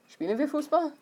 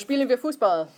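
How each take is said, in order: First: The voice rises at the end. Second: The voice falls at the end. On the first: It asks whether they are playing. "if you put that question mark there" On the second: It is a suggestion to play. "Let's play soccer"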